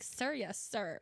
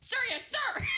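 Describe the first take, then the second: First: It is said in a low, seductive voice. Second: It is yelled loudly like a military reply.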